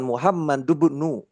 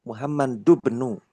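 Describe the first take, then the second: First: The final n runs straight into bnu. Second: The final n runs straight into bnu.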